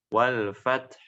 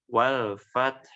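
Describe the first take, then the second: The two takes are said the same way.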